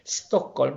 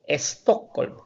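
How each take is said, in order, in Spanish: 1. La palabra empieza directamente con el sonido s. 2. Hay un sonido e extra antes de la s. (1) "se dice Stockholm" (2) "nosotros decimos Stockholm. Le ponemos la E delante de la S"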